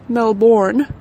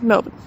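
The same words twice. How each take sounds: First: The vowels are said fully and clearly. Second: The vowels are squashed almost into one syllable. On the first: This is how visitors have been saying it. The speaker calls it wrong. "not Melbourne, as we have constantly been hearing, to a shudder down my spine" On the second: This is how locals say it. The speaker calls it right. "as if there are no vowels in this word whatsoever, and you're just trying to smush the whole thing into one syllable"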